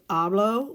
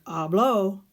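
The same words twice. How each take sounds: First: "hablo" stressed on HA, the first syllable. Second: "Hablo" with the accent on the final o; stress on final syllable. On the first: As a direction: hit the first syllable of "hablo", leaving the final o unstressed. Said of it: "with the accent and the inflection in your voice". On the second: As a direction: push the last syllable of "Hablo". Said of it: "and the inflection in your voice is she talked". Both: Shown as a demonstration.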